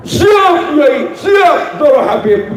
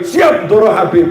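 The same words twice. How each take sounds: First: High, shouted eager yes-sir; eager obedience. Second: Said in the usual way. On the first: Retold or imitated. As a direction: snap to it like an overeager servant. Eager servile reply to the kiai.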